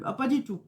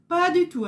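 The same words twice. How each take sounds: First: Said in the usual way. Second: Higher, louder "Pas du tout" with weight on "du tout"; emphatic denial. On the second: Real, not acted. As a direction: insist hard on "Pas du tout". (« Pas du tout » appuyé, plus haut et plus fort)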